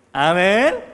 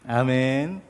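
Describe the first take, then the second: First: High, shouted amen; loud amen. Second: Said in the usual way. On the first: Real, not acted. Preacher calling the congregation to answer, shouted amen. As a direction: call out amen to rouse the congregation.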